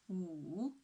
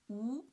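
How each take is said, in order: First: The pitch dips low, then rises again. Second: The pitch rises from middle to high. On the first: "the third tone, from two to one to four" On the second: "the second tone, from three to five"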